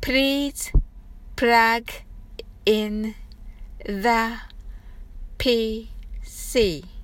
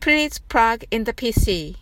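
First: It is said slowly. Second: It is said fast.

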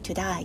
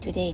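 First: The second vowel sounds like 'die'. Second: The second vowel sounds like 'day'. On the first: "エイが愛になっちゃうんですよね" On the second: "トゥデイじゃなくて"

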